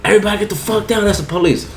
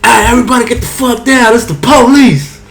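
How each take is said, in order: First: High, fast retelling of the cop yell; quick half-voiced cop call; mock police shout. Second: High, loud fake police raid yell; hammed-up police bust-in shout; mock police shout. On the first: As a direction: lighter replay of the raid call. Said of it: "so fucking I said". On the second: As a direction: bust in yelling like a cop. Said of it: "And then I said".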